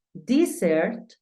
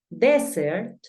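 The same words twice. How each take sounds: First: "Desert" said "dee-sert"; pronunciation model. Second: "Desert" said "deh-sert"; short E opening "Desert", end lifted; pronunciation model. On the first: Teacher reviewing desierto, "Desert" as dee-sert. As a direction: ee sound opening "Desert", end lifted. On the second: Teacher reviewing postre, "Desert" as deh-sert. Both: Shown as a demonstration. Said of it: "Te voy a pronunciar nuevamente las palabras".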